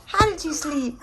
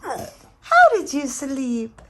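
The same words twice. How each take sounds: First: High cooing question. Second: High, slow drawn-out coo. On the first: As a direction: ask it sweetly to a pet. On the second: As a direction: stretch it out lovingly to a pet. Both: Real, not acted. Cooing to the dog, repeated.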